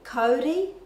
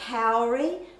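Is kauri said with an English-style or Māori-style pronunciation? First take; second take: Māori-style; English-style. First: It is said with a Māori-style pronunciation. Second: It is said with an English-style pronunciation. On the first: The speaker calls it right. "really should be kauri in the correct Māori pronunciation" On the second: The speaker calls it wrong. "people say kauri"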